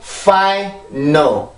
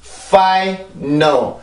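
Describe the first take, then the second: The two takes are said the same way.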